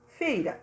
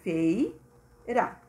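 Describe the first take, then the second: First: Said in the usual way. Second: "Feira" drawn out in two parts; syllable by syllable. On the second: Shown as a demonstration. Teacher showing one object per syllable, split "Feira". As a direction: pause inside "Feira" between its syllables. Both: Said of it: "um se refere a cada sílaba".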